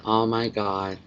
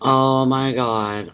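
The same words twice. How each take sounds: First: Said in the usual way. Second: Drawn-out, awed Oh my God; stunned slow oh my god. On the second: Real, not acted. To viewers, amazed at the Breaking Bad movie news, slow and awed. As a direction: let it out slowly in disbelief.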